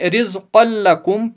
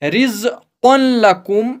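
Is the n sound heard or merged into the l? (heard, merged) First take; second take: merged; heard. First: The n sound merges fully into the l. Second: The n sound is heard before the l. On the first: The speaker calls it right. "बल्कि ... पढ़ेंगे, जैसे कि यहां सिर्फ एक ही जबर हो" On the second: The speaker calls it wrong. "नहीं"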